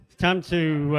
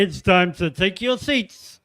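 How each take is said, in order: First: Loud bingo caller call. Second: Slow booming bingo caller call. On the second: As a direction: drag it out like calling numbers. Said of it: "that was a bit like bingo caller". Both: Acted.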